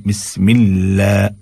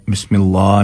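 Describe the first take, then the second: First: "बिस्मिल्लाह" with a light, thin laa; fine, narrow aa in "बिस्मिल्लाह"; thin lam. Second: "बिस्मिल्लाह" with a thick, rounded laa; everyday "बिस्मिल्लाह", heavy aa; wrong heavy lam. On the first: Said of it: "बारीक करके पढ़ना है". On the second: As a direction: say "बिस्मिल्लाह" in conversation, dark L. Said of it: "बिस्मिल्लाह नहीं". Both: Shown as a demonstration.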